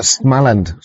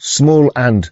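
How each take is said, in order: First: SMALAND run together with a short first A; name as one word. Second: SMALL AND as two English words; split into words. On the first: Streamer puzzling over a name, Smaland as one word. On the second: Streamer puzzling over a name, "Small and" as two words. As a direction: say "Small and" with the vowel of "small". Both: Shown as a demonstration.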